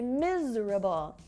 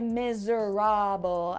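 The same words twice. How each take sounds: First: The second syllable is dropped. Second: All syllables are pronounced fully. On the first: The speaker calls it right. "I say miserable" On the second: The speaker calls it wrong. "I don't say miserable"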